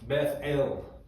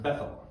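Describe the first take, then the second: First: It is said in its original two-part form. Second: It is said as the familiar English name. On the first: "but it's Beth El" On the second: "we would pronounce it Bethel"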